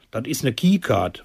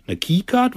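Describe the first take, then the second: First: Said in the usual way. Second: Baffled question. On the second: Acted. Narrator baffled by new word.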